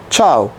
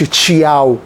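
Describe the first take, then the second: First: The 'ch' runs straight into 'ao'. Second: A clear 'ee' sound follows the 'ch'. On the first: The speaker calls it right. "الاي بتبقى خفيفه" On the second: The speaker calls it wrong. "ما بقولش تشياو"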